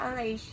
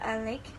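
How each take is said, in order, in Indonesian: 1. Konsonan terakhirnya adalah bunyi sh. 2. Konsonan terakhirnya adalah bunyi k. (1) "yang dibacanya" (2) "Contoh lain itu ada"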